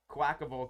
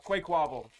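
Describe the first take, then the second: First: The first syllable sounds like 'quack'. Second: The first syllable sounds like 'quake'. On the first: This is the way other people say it. "I hear people call him" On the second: This is the way the speaker always said it. "I always called them"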